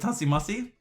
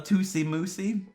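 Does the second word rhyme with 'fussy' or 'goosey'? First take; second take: fussy; goosey. First: The second word has a short u vowel. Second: The second word has a long oo vowel. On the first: The speaker calls it right. "it's a Tussy Mussy" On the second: The speaker calls it wrong.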